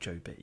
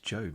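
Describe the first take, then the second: First: The name is said as two syllables. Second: The name is said as one syllable. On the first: The speaker calls it wrong. "not Joe B" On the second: The speaker calls it right. "it's not a two syllabled name"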